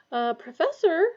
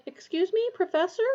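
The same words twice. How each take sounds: First: Professor falling, hesitant and polite; Uh, Professor said with a falling tune, testing; timid first try to wake him; tentative call. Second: Higher, Professor rising like a question; second, higher polite attempt; questioning call. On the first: Waking sleeping teacher politely. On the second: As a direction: Excuse me, Professor? lifted at the end. Second try to wake him. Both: A narrator's reading.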